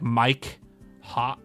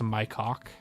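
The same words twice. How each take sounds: First: The two words are said slowly and separately. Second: The two words are said fast and run together. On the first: It sounds like an ordinary name. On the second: It sounds like a rude phrase.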